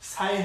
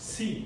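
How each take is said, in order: First: The vowel sounds like 'ai'. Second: The vowel sounds like 'ee'. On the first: The speaker calls it wrong. "সাই হবে না" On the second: The speaker calls it right. "এটা হয়ে যাবে হচ্ছে সি"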